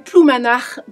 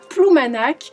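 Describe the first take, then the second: First: The name is said the purist, traditional way. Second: The name is said the ordinary, everyday way.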